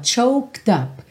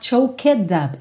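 First: The word choked is one syllable, linked on. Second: The word choked has an extra vowel syllable. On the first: The speaker calls it right. "Esse E não é pronunciado" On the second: The speaker calls it wrong. "Cuidado para você não falar choked up"

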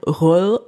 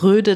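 First: The name has a soft Danish final sound. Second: The name has a plain German d sound. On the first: This is the original pronunciation that is hard to say. "das O durchgestrichen ist ein Ö auf Dänisch ... Röll kann kein Mensch aussprechen" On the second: This is an easy form that is good enough. "sagt Röde dazu und fertig"

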